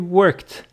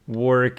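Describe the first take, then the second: First: The ending is a voiceless t sound. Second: The ending is a voiced d sound. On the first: The speaker calls it right. "it's easier to say worked" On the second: The speaker calls it wrong. "Very difficult"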